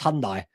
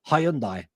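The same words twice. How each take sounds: First: The name is said the maker's official way. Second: The name is said the usual British way. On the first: This is how the maker says it. The speaker calls it right. "they're actually pronounced Hyundai" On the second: This is how people in the UK say it. The speaker calls it wrong. "we call them Hyundai"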